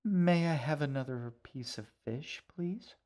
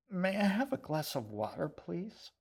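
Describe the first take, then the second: First: Sugary polite request, please lifted high; butter him up with sweetness; sweetest voice. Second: High, strained, barely getting it out past dry rice; choking out the words. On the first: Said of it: "she asked in her sweetest voice". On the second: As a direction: talk past a throat full of dry rice. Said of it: "She just managed to choke the words out". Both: Acted.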